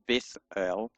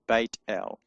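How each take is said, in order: First: The name is said with a 'th' sound. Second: The name is said with a 't' sound. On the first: The speaker calls it wrong. "So it's not a th, it's not Beth El" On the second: The speaker calls it right. "it's Beit El"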